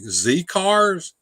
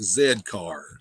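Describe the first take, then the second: First: The letter is said as American zee. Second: The letter is said as British zed.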